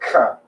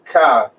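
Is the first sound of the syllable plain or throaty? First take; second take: throaty; plain. First: It starts with a throaty, rasping sound. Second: It starts with a plain k sound. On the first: The speaker calls it right. "It sounds like ka, like that. it's a throaty sound" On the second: The speaker calls it wrong. "It doesn't sound like ka"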